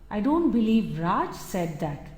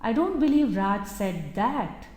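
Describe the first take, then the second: First: The word Raj carries the main stress. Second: The word that carries the main stress. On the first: Someone else may have said it. "It could be someone else, but not Raj" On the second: Something different may have been said instead. "He might have said something else, but not that"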